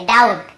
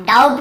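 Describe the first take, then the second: First: "डाउट" said dout, no B; silent B. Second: "डाउट" said doub-t; B pronounced. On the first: Teacher corrects doubt for students, "डाउट" with B silent. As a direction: leave B out of "डाउट". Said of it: "ये मैं आपको पढ़ाऊँ". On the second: Teacher shows what not to read, "डाउट" said doub-t. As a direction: put a B before the T of "डाउट". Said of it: "नहीं पढ़ेंगे". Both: Shown as a demonstration.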